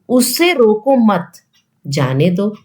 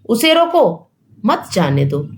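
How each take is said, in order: First: The pause comes after 'mat'. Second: The pause comes after 'roko'.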